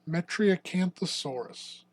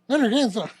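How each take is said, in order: First: The word is said slowly. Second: The word is said fast.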